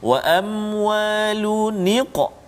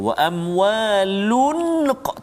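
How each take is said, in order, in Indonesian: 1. Huruf n pada amwalun mendapat tambahan vokal i. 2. Huruf n pada amwalun tidak mendapat vokal tambahan. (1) "kena hidupkan nun tu dan mesti baris bawah" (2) "tak boleh nak baca tu wa amwalun qa, tak boleh"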